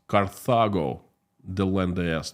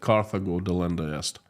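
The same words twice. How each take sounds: First: Carthago is pronounced the Latin way. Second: Carthago is pronounced the English way. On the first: The speaker calls it right. "In Latin, it sounds" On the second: The speaker calls it wrong. "I said it for the longest time... that's wrong... Carthago is English pronunciation"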